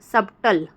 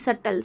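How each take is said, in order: First: A b sound is voiced before the t. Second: The b is silent, no b sound. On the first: The speaker calls it wrong. "हम नहीं पढ़ेंगे सबटल" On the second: The speaker calls it right. "सटल को हम जो है क्या नहीं पढ़ेंगे"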